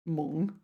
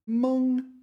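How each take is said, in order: First: The syllable has a low dipping third tone. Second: The syllable has a high level first tone. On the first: "so that's the third tone" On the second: "let's start with first tone"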